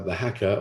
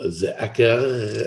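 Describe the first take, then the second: First: It is said with an English accent. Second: It is said with a French accent.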